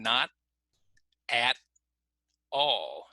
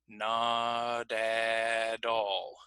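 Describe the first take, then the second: First: The T is stopped, with words kept apart. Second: The T is linked and sounds like D. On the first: "So notice I'm stopping" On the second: "when we put the T in the middle, then it starts to sound kind of like the D sound"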